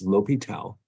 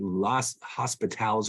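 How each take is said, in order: First: The name is said without an 's' sound. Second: The name is said with an 's' sound. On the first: The speaker calls it right. "It's L'Hopital" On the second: The speaker calls it wrong. "you want to say Las Hospitals or whatever. It's not"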